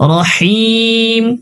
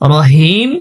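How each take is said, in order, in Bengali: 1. শেষের h গলা থেকে চেপে উচ্চারিত। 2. শেষের h হালকা, গলায় কোনো চাপ ছাড়া। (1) "শেষে হা রয়েছে, গলায় চাপ দিব।" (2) "রহিম রহিম পড়বো না"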